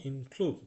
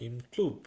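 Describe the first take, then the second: The two takes are said the same way.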